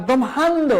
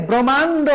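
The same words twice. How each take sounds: First: ব্রহ্মাণ্ড as "brom-hando", h sounded; spelling pronunciation. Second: ব্রহ্মাণ্ড as "brommando", no h; actual pronunciation. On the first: Teacher contrasts for students ব্রহ্মাণ্ড as "brom-hando". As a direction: break ব্রহ্মাণ্ড after m and sound the h. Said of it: "না ব্রহ্মাণ্ড". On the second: Teacher models for students ব্রহ্মাণ্ড as "brommando", h silent. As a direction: run m straight into the vowel in ব্রহ্মাণ্ড. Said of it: "এই যে ব্রহ্মাণ্ড না". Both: Shown as a demonstration.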